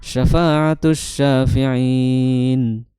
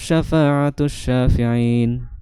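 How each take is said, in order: First: The final long vowel is held moderately long. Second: The final long vowel is held briefly. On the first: "bisa empat harokat" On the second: "bisa panjangnya dua harokat"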